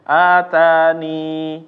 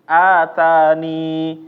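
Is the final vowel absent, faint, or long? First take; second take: long; long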